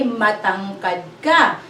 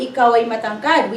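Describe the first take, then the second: First: Matangkad ka said slowly and clearly; slow model. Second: Ikaw ay matangkad run off quickly as the wrong example; wrong version, fast. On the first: Teacher slowly gives the right Tagalog phrase. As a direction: spell out Matangkad ka slowly for the class. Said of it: "We say". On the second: Teacher quickly names the order learners should not use. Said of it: "we don't say". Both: Shown as a demonstration.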